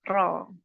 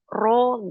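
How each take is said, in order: First: The vowel is only slightly rounded, lips barely pouting. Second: The vowel is strongly rounded with protruding lips. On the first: The speaker calls it right. "cukup gini saja ro" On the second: The speaker calls it wrong. "mulut kita tidak perlu mencucu, misalkan ro gitu ya, sampai maju. Jangan"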